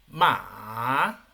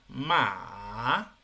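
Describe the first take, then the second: First: The pitch rises from middle to high. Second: The pitch dips low and then rises. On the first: "El segundo. / muy bien" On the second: "en este caso el tercero"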